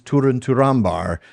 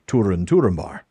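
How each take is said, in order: First: Turambar is stressed on its second syllable. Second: Turambar is stressed on its first syllable. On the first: The speaker calls it right. "the stress is on the penult" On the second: The speaker calls it wrong. "as I have been pronouncing it for most of this time"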